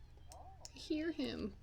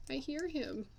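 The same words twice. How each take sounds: First: Hushed listening. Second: Said in the usual way. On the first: Real, not acted.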